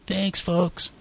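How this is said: It is said softly and apologetically.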